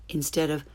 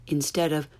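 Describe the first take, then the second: Both takes have the same delivery.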